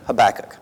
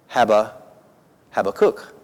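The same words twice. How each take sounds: First: It uses the traditional English vowels and stress. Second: It uses Hebrew-style vowels and intonation. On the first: This follows the older English Bible tradition. "the way the King James did, you would do it the way I just said it" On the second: This follows the original Hebrew form. "with the intonation and the vowel change"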